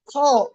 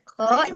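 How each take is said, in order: First: The sound is made with rounded, pushed-out lips. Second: The sound is made with flat, unrounded lips. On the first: The speaker calls it wrong. "dia dimonyongkan bibirnya" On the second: The speaker calls it right. "dia tidak dimonyongkan bibirnya"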